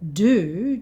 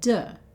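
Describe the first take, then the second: First: The word has a full oo vowel. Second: The word has a reduced schwa vowel.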